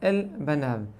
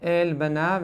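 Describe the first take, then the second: First: The vowel in the first word is short. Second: The vowel in the first word is long. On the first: The speaker calls it right. "למדנו אל תנועה קטנה, לכן קיצרתי" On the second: The speaker calls it wrong. "לא אל בניו"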